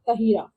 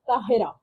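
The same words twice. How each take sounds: First: The name is pronounced the English way. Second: The name is pronounced the Urdu way. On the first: "not Tahira" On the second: "in Urdu we say Tahira"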